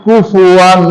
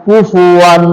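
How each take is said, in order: The two takes are said the same way.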